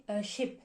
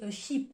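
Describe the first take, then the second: First: "ship" said with a short, lax i; "ship" with a clipped short i, unlike "sheep". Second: "sheep" said with a long, tense ee; "sheep" with a long ee, unlike "ship". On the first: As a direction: keep the vowel in "ship" short and open. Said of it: "il y en a un qui s'écrit avec un i". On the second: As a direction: stretch the vowel in "sheep" into a long ee. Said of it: "le deuxième qui s'écrit avec deux e". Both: Shown as a demonstration.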